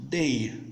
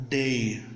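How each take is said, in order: No difference in how they are said.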